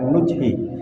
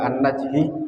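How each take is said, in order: First: The first vowel is a rounded 'u'. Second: The first vowel is an open 'a'. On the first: The speaker calls it right. "dengan dhammahnya nun, ... tapi dibaca nujhi" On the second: The speaker calls it wrong. "tidak dibaca an-najhi"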